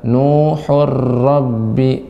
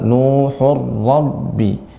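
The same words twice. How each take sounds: First: The r is thin and not held back. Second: The r is thick and held back. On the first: The speaker calls it wrong. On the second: The speaker calls it right. "Dia seperti kayak tertahan eh, karena roknya tebal"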